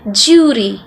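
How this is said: British accent, the 'd' turns into a 'j' sound. "it was pronounced as jury"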